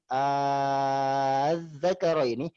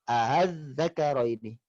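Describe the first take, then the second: First: The opening vowel is held long. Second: The second hamza is softened, not lengthened. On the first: "yang pertama tadi dibaca dengan mad, yaitu madul lazim" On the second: "yang kedua dibaca qasr dengan tashil"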